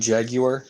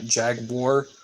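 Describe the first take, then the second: First: Jaguar is said with a British English pronunciation. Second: Jaguar is said with a non-British pronunciation. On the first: The speaker calls it right. "so it's the proper English um, pronunciation" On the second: The speaker calls it wrong. "not Jaguar"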